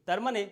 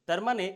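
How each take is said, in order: Both takes have the same delivery.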